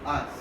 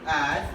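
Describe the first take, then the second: First: The vowel is reduced to a weak schwa. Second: The vowel is full and clearly pronounced.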